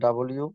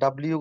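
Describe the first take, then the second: First: It is said fully as two parts, double-you. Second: It is squeezed into one short run-together word. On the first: The speaker calls it right. "ডাবল ইউ এভাবে বলতে হবে।" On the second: The speaker calls it wrong. "ডাব্লিউ গুলো হবে না তো"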